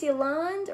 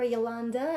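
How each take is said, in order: First: Yolanda said as "yo-LAHND"; name without final vowel. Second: Yolanda said as "yo-LAHN-duh"; name with final vowel. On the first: Host unsure of a viewer's name, Yolanda without its last vowel. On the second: Host unsure of a viewer's name, Yolanda with its last vowel. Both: Shown as a demonstration. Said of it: "I don't know if it's Yolanda or Yolanda".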